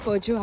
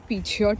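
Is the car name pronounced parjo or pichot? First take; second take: parjo; pichot. First: It is said as parjo, with no final t. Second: It is said as pichot, with a final t. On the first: This is the actual pronunciation. The speaker calls it right. "ह्याचं प्रोनाऊन्सिएशन पर्जो आहे" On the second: This is how the spelling seemed to read. The speaker calls it wrong. "जे मला स्पेलिंग प्रमाणे पिछॉट वाटायचं"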